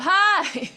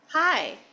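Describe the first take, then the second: First: It is said much too loudly. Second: It is said at normal talking volume.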